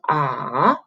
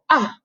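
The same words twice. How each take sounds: First: The pitch dips down and then rises. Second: The pitch falls sharply from high to low. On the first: "The third tone ah, you go down, up" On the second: "The fourth tone you go ah, go all the way down"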